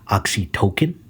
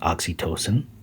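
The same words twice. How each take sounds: First: The word is said with an altered, tocolytic-like sound. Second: The word is said with its standard pronunciation. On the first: The word is linked to tocolytic. "if they had decided to pro- pronounce it oxytocin" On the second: The word is said the usual way. "or normal pronunciation oxytocin"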